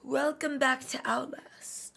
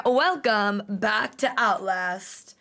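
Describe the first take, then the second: First: Slow unvoiced whisper; whispered intro. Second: Slow drawn-out intro. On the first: Youtuber trying her greeting as a slow whisper. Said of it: "Like, where am I going?". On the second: Youtuber drawing out her channel greeting slowly. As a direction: welcome stretched out slowly. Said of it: "I kinda wanna, like, twirl". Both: Shown as a demonstration.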